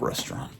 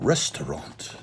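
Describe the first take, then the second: First: It is said without the extra syllable. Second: It is said with an extra syllable.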